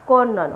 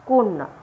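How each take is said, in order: First: The first vowel is an open 'aw' sound. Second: The first vowel is a closed 'o' sound. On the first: The speaker calls it wrong. "নয়" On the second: The speaker calls it right. "কয় ওকার নয় জফলা আকার"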